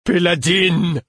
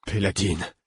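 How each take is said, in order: First: High, loud, drawn-out wail falling away; distraught cry. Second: Lost, subdued call of a name; distraught. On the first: Laudevin calls to the dead Péladine, despairing loud wail. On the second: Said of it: "l'air éperdu". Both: A narrator's reading.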